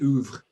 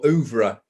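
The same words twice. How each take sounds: First: The ending is not sounded as an extra syllable. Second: The ending is sounded out as an extra syllable. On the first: "I think the French say oeuvre" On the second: "if you want to pronounce the R E at the end"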